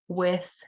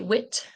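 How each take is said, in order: First: The word ends with a TH sound. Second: The word ends with a plain T sound. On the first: The speaker calls it right. "they'll say it correctly" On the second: The speaker calls it wrong. "when they are unable to say the sound, they'll say wit"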